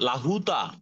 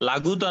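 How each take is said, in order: First: The middle consonant is an h sound. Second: The middle consonant is a g sound. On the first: The speaker calls it right. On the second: The speaker calls it wrong. "লাগুতা না"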